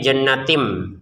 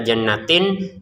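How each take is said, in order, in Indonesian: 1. Kata itu diakhiri dengan bunyi m. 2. Kata itu diakhiri dengan bunyi n. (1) "tapi jannatim ya" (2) "jangan dibaca jannatin"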